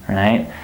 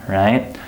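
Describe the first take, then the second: Both takes have the same delivery.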